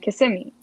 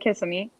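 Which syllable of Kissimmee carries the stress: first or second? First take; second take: second; first. First: The stress falls on the second syllable. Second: The stress falls on the first syllable. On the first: "put the emphasis on the I" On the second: "some people say Kissimmee"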